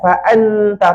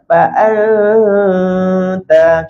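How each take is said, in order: First: The n is pronounced as a clear, distinct n. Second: The n blends into a smooth nasal hum. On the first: The speaker calls it wrong. "Kalau kita sentuh, jadi nun jelas" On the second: The speaker calls it right. "Ini dengung ta yang cantik. Dengung jadi sama-sama"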